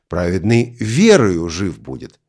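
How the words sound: The word верою carries the main stress. The point is that faith, not law, brings life. "В послании к галатам акцент делается на слове «верую»"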